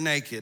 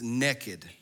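First: The word is said in a standard accent. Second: The word is said in a Southern US accent.

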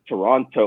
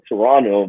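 First: The second t sound is clearly pronounced. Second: The second t sound is dropped. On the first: This is how Americans say the city name. "in the US, they pronounce... So they're like" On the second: This is how Canadians say the city name. "in Canada, we don't pronounce like the second T's... we call it"

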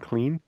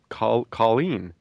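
First: The name is said with one syllable. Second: The name is said with two syllables. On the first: The speaker calls it right. "she'd say clean" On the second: The speaker calls it wrong. "you say it wrong"

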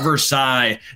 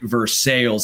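First: The name is said in the French way. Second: The name is said in the local American way. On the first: It names the place of the treaty. The speaker calls it wrong. "Not Versailles, not like the treaty" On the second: It names the town being visited. The speaker calls it right. "you heard that right, Versailles"

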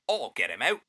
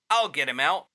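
First: It is said like a Mary Poppins chimney sweep. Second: It is said in a plain first voice.

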